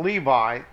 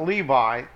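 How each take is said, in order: First: The middle consonant is a V sound. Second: The middle consonant is a V sound.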